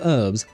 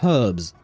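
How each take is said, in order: First: It is pronounced the American way. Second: It is pronounced the British way. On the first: "the American way of pronouncing that word" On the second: "British people would pronounce it herbs"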